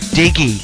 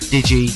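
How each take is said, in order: First: The g is hard, like in dig. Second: The g is soft, like a j sound. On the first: The speaker calls it right. "Digi as in dug it up, dig up that turf now" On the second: The speaker calls it wrong. "I've mispronounced Digi as in digital"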